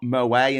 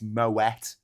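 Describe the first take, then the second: First: The final T is silent. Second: The final T is pronounced. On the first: The speaker calls it wrong. "it's not Moet and Chandon champagne" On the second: The speaker calls it right. "So you pronounce the T"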